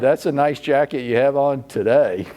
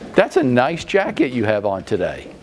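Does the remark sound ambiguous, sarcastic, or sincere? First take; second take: ambiguous; sincere. First: The remark sounds unclear and hard to read. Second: The remark sounds warm and sincere. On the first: The intent is left unclear. "you're not quite sure what I'm saying" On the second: It is meant as a compliment. "anything from a compliment"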